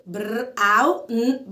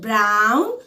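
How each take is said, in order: First: Brown split as "بر", "أو", "ن", slowly; sound by sound. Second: Said in the usual way. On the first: Shown as a demonstration. Teacher splits brown for learners, slowly sound by sound. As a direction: break brown into three slow separate sounds. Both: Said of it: "فأنا مقسمة مقاطع".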